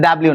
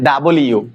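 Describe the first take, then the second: First: The letter is run together as 'dablew'. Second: The letter is said as 'double you'. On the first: The speaker calls it wrong. "এটা এটা ডাব্লিউ না" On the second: The speaker calls it right. "এটা ডাবল ইউ"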